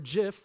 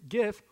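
First: The word begins with a J sound. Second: The word begins with a hard G sound. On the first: The speaker calls it right. "like peanut butter" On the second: The speaker calls it wrong. "hard G"

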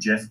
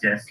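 First: The word begins with a soft j sound. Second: The word begins with a hard g sound. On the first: This is the inventor's preferred form. The speaker calls it wrong. "The guy who invented it wanted it to be GIF, but he's wrong" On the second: This form matches the start of the word gift. The speaker calls it right. "Start the word gift"

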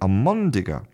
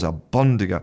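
First: An m sound with no burst of air follows al. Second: A b sound with a burst of air follows al. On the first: This is easier and flows more naturally. "So they're saying almondiga, which is much easier" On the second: This takes extra effort to say. "It creates a pause"

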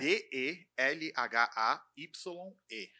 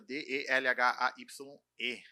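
First: The letters are spelled out slowly. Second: The letters are spelled out quickly.

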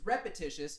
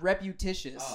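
First: The second syllable is said the ordinary way. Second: The second syllable has an over-enunciated 'u' sound. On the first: The speaker calls it right. "It's repetitious" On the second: The speaker calls it wrong. "Enunciation on that U and T that doesn't exist"

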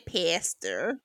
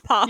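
First: The word ends with a pronounced r sound. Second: The word ends in a vowel with no r. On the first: This is how Americans say it. "they say pastor" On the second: This is how the speakers themselves say it. "It's pasta"

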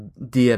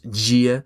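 First: The d is a plain hard d sound. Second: The d sounds soft, like a 'j'. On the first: This is the European Portuguese pronunciation. "those are pronounced very, very as you would do in Spanish" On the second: This is the Brazilian Portuguese pronunciation. "When you go to Brazil, you get this kind of interesting twist on that"

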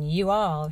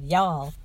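First: It is said in a plain, neutral accent. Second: It is said in a Southern US accent. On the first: "instead of saying "you all,"" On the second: "she said "y'all.""

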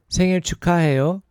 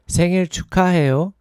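Both takes have the same delivery.

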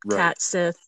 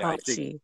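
First: The second word ends in a 'th' sound. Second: The second word sounds like 'she'. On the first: The speaker calls it wrong. "I'll say it like you would type it" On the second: The speaker calls it right. "pronounce it like caught she"

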